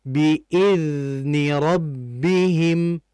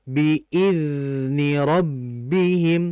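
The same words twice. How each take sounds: The two takes are said the same way.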